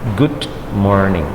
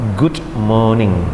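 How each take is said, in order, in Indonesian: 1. R pada morning terdengar samar. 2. R pada morning dihilangkan sama sekali. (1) "Morning kalau Amerika. Dengarkan" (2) "Kalau British, ... R-nya hilang"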